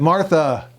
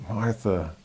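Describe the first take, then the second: First: The name is said louder. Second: The name is said quietly. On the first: "And a little louder the second time" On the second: "Or was it quiet the first time?"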